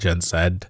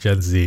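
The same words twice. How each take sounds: First: The letter Z is said the Canadian way. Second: The letter Z is not said the Canadian way. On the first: The speaker calls it wrong. "because we're in Canada, we're going to call it Gen Z" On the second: The speaker calls it right. "That sounds weird. Let's just call them Gen Z"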